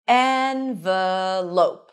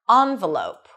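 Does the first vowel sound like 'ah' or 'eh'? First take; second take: eh; ah. First: The first vowel sounds like 'eh' in red. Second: The first vowel sounds like 'ah' in father. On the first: "E as in red" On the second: "ah as in father"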